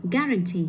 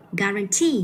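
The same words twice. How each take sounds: First: Guarantee without the weight on TEE; stress off last syllable. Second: Guarantee with the weight on final TEE; stress on third syllable. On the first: Teacher showing a student the mistake, guarantee with TEE left unstressed. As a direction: say guarantee with the final TEE falling away unstressed. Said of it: "như vậy là không phải nhấn vào". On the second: Teacher correcting a student, guarantee stressed on TEE. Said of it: "Mình phải đọc là guarantee". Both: Shown as a demonstration.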